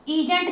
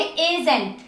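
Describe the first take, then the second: First: ईजेंट starting with an "ee" sound; wrong long-ee reading. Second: एजेंट starting with an "ay" sound; correct e reading. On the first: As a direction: open ईजेंट on "ee" as in "see". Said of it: "ईजेंट नहीं पढ़ोगे". (ईजेंट, शुरू में लंबी "ई") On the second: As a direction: open एजेंट on "ay" as in "day". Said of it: "पढ़ोगे". (एजेंट, शुरू में "ए" की आवाज़) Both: Shown as a demonstration.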